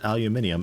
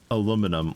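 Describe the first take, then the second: First: The word has five syllables, ending in -ium. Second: The word has four syllables, ending in -um. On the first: This is the form the official naming body chose. The speaker calls it right. "That is how Yeti pronounces it" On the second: This is the form some other people use. The speaker calls it wrong. "not aluminum like the heathens do"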